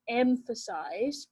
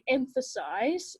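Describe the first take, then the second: First: Drawn-out "Emphasize," with each syllable stretched out slowly; slow emphatic demo of "Emphasize,"; said really slowly. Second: Said in the usual way. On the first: Shown as a demonstration. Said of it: "really slowly because I". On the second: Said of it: "I might be explaining like this".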